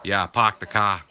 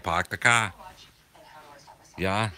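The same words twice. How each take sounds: First: "park the car" as "pahk the cah", r dropped, Boston accent. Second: "park the car" again as "pahk the cah", r-less Boston accent. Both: Shown as a demonstration. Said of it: "That's how we say it".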